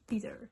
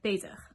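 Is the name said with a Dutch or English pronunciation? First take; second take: English; Dutch. First: The name has an English pronunciation. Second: The name has a Dutch pronunciation.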